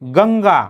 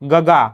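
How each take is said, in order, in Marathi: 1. दुसऱ्या g च्या आधी स्पष्ट अनुनासिक आवाज येतो. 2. दुसऱ्या g च्या आधी कोणताही अनुनासिक आवाज येत नाही. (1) "स्पष्ट आणि खणखणीत उच्चार" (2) "गंगाला मी अनुस्वारच दिला नाही"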